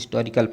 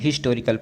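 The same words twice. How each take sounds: First: The h is silent; it begins with a vowel. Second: The word begins with a clear h sound. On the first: This is the older way of reading it. "Old grammarian इसको हिस्टोरिकल पढ़ते हैं ... एच को silent मान लिया" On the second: This is the modern way of reading it. "Modern grammarian ... हिस्टोरिकल पढ़ते हैं ... पहला क्या है, हा है"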